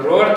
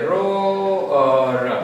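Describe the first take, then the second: First: It is said as one closed syllable. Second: It is said as two parts, ro-ar. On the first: The speaker calls it wrong. "આનો ઉચ્ચાર આમ રોડ થશે નહીં" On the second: The speaker calls it right. "આનો ઉચ્ચાર થશે રો અર"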